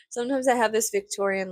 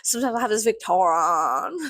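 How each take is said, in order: First: Said in the usual way. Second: Hammed-up, unplaceable accent on Victorian; exaggerated put-on accent, louder toward the end; mock accent. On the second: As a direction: play up the silly accent, drawing out Victorian as "vic-taw-rawn". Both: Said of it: "What the fuck was that accent?".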